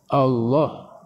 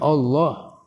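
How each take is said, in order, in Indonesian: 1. Vokal setelah lam terdengar seperti A terbuka. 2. Vokal setelah lam terdengar seperti O bulat. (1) "A bukan bukan O" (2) "Bukan Allah"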